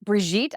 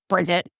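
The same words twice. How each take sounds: First: Mock French pronunciation. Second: BRIDGET said with a touch of scolding; mildly mock-angry name. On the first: Boyfriend trying to make her name romantic, mock French pronunciation. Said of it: "I'm not French". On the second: Boyfriend failing to sound romantic to her, mildly mock-angry. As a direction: say BRIDGET as a hard, curt name, lightly imitating anger. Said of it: "it just sounded like they were angry".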